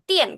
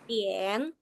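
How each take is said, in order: First: The pitch drops sharply from high to low. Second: The pitch dips low and then rises. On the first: It refers to electricity. "itu pakai nada empat" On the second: It refers to the hour or time, or ordering. "kakak harus ingat menggunakan nada tiga"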